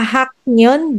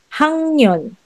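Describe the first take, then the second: First: The first syllable ends in a k sound. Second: The first syllable ends in an ng sound. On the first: The speaker calls it wrong. "hindi siya hak nyon" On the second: The speaker calls it right. "but it will be hang nyon"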